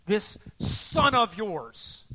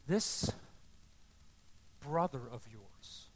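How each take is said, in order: First: Loud, drawn-out, scornful accusation; vehement contempt. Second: Slow, low, measured fatherly words; very calm. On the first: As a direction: spit out each word slowly in anger. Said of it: "vehement language coming out of him". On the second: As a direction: answer the anger with quiet patience. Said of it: "Very calmly says". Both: Acted.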